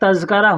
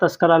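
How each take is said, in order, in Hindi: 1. बीच का व्यंजन z ध्वनि है। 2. बीच का व्यंजन s ध्वनि है। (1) "देखिए तज़्करा होता है" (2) "तस्करा लोग कहते हैं"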